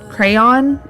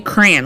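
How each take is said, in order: First: The first syllable sounds like cray. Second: The first syllable sounds like cran. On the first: "my husband pronounces it like the correct way" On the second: "like cranberry, like C R A N"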